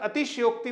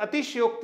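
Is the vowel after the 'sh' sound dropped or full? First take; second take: dropped; dropped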